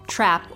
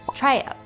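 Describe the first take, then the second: First: The word has a single vowel sound. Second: The vowel stretches into two vowel sounds. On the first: This is the speaker's own dialect. "have a single vowel sound in my dialect" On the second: This is how it sounds in Southern English. "stretch out in Southern English to sound like two vowels"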